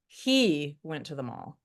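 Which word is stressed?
he. The word he is stressed. It questions who he is or what we think of him. "We're pointing out he went to the mall"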